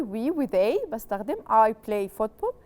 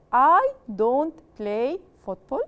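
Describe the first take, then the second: First: Said in the usual way. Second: Don't leaned on, slow; slow clear model of don't; stressed negative. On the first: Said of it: "In the statement". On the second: Shown as a demonstration. Teacher contrasting negative with the statement, slow. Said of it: "In the negative".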